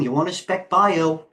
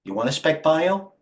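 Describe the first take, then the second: First: "bio" drawn out slow with a falling tune; slow, sure pitch, "You want to spec bio" falling at the end; a flat statement dressed as a question. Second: "bio" lifted with a rising tune; real question, "You want to spec bio" going up at the end. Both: Shown as a demonstration. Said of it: "Trust me".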